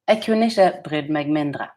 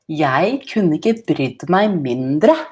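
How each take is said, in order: First: It is said without an Oslo accent. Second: It is said with an Oslo accent.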